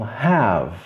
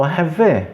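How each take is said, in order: First: "have" as one syllable ending on V; E final mudo. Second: "have" wrongly as two syllables, ha-vê; E final pronunciado. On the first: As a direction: end "have" on V, no vowel. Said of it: "O E é mudo". ("have" sem E, terminando no V) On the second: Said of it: "Eu não falo have". ("have" com E final, ha-vê) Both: Shown as a demonstration.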